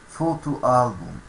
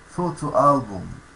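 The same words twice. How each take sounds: The two takes are said the same way.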